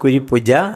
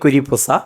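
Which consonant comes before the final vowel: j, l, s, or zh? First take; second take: j; s. First: The last syllable starts with a j sound. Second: The last syllable starts with an s sound. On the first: "പറയാൻ അറിയാൻ വയ്യ" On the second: "പറയാൻ അറിയാൻ വയ്യ"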